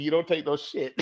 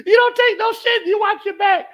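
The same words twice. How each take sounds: First: Said in the usual way. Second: Much higher, louder hammed-up shout; shouted lesson. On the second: Real, not acted. Passing on his father's lesson, loud mock shout. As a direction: bellow it like a rule to live by.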